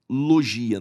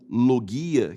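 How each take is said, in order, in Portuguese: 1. O G é pronunciado suave, como um 'j'. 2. O G é pronunciado duro, como em 'go'. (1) "alguns citam logia" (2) "esse G no grego tem som de G"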